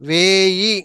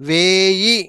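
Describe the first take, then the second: No difference in how they are said.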